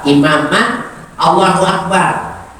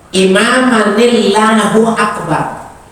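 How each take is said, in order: First: Imaman and Allahu are said as separate words. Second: Imaman runs into Allahu with an added i sound.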